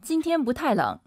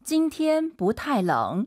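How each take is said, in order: First: Brisk native-speed Mandarin; fast everyday delivery; quick natural pace. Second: Slow, evenly spaced Mandarin model sentence; careful teaching pace. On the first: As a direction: say the sentence quickly, running syllables together. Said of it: "선생님 빠르게 한번 해주세요". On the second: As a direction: pronounce each syllable slowly for learners. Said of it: "선생님처럼 이제 천천히 발음하시니까". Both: Shown as a demonstration.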